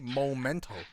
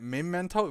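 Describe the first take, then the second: First: The first syllable sounds like 'mo'. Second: The first syllable sounds like 'me'. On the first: The speaker calls it wrong. "People like to say Momento" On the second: The speaker calls it right. "isn't it Memento because it's M E instead of M O?"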